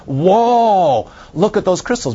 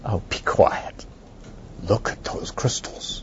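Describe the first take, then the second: First: Imitating visitors' awe. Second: Slow, soft whispered shush; hushing whisper. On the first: Visitors see Laurel's crystals, imitated awed whoa. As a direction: play a dazzled visitor. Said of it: "The first thing they see is". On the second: Retold or imitated. Visitor shushes the Lama, whispered. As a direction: hush him and gaze at the crystals. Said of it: "just being completely ignored".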